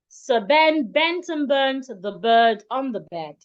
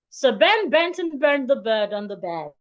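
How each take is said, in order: First: It is spoken at a faster pace. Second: It is spoken at the fastest pace. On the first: "I'll take it faster" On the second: "I'll take it a bit faster"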